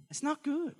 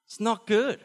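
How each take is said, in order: First: Much higher, squeaky comic repeat; mock squeak. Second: Loud, emphatic verdict. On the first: Preacher repeats the goat verdict in a high comic squeak. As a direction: squeak it out like a joke. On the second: Acted. Preacher declares goat bad, loud and emphatic. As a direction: stamp it down loudly.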